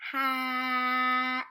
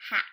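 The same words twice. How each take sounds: First: "Hat" with a long held vowel and a quick final t; sounded out slowly. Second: Said in the usual way. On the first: Shown as a demonstration. Teacher modelling a word to read, "Hat" sounded out slowly. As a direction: stretch the middle of "Hat" on one level note, loud. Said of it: "we're not going to stop on the sound". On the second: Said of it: "What word?".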